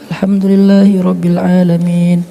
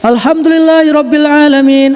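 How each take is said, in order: First: It is said quietly, almost hushed. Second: It is said loudly, almost shouted.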